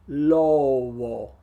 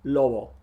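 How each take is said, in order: First: The word is drawn out very slowly. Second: The word is said at natural speed. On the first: "That would look like this in slow motion" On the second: "Now let me show you how I say it more naturally"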